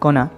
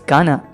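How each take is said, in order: First: The first vowel is a rounded 'oh' sound. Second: The first vowel is an open 'ah' sound. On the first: The speaker calls it wrong. "Not गोना" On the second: The speaker calls it right. "It's गाना"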